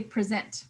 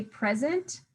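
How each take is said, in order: First: "present" stressed on SENT, as the verb; stress on second syllable. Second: "present" stressed on PRE, as in a gift; stress on first syllable. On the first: Teacher contrasting word meanings, "present" with end stress. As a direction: hit the last syllable of "present", pri-ZENT. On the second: Teacher contrasting word meanings, "present" with front stress. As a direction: hit the first syllable of "present", PREZ-ent. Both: Shown as a demonstration. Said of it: "depending on how we say them".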